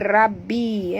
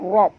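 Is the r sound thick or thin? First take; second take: thin; thick. First: The r sound is light and thin. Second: The r sound is heavy and thick. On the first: The speaker calls it wrong. "jangan baca rabbi ya" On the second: The speaker calls it right. "tapi baca rob tebal ya"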